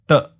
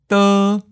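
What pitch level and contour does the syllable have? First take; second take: mid stop; high flat. First: The syllable is short, cut off at mid pitch. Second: The pitch stays high and level. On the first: "Fourth tone, mid stop" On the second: "First tone, high flat"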